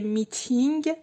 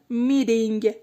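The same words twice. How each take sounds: First: The middle consonant is a clear t sound. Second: The middle consonant sounds like a soft d. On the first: The speaker calls it wrong. "به جای میتینگ" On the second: The speaker calls it right. "میگم میتینگ"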